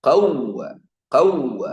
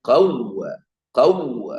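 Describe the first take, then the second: The two takes are said the same way.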